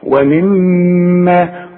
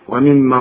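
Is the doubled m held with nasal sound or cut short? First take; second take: held; short. First: The doubled m is held with a nasal hum. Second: The doubled m is cut short without nasal hold. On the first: The speaker calls it right. "كل ميم في القرآن مدام عليها الشدة غنها" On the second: The speaker calls it wrong. "ما تقولش ومما رزقناهم زي ما بنسمع ناس كتير"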